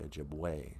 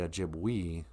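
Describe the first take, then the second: First: The final vowel sounds like 'ay'. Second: The final vowel sounds like 'ee'. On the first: The speaker calls it right. "E's are pronounced as an A sound" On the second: The speaker calls it wrong. "we don't say Ojibwe"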